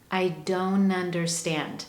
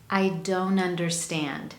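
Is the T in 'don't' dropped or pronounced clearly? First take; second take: dropped; dropped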